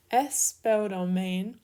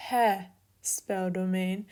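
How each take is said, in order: First: "Espeldomain" slowly, starting straight on the vowel e with no h sound; correct smooth breathing. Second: "he speldomain" slowly, with an h breathed before the e; wrong rough breathing. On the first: Greek teacher giving students the correct form, slowly, with no h. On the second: Greek teacher showing students the wrong form with a rough h. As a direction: breathe an h onto the start of "he speldomain". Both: Shown as a demonstration.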